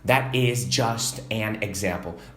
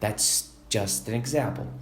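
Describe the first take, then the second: First: 'That is' is said as two full words. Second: 'That is' is contracted into one syllable. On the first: The speaker calls it wrong. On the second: The speaker calls it right.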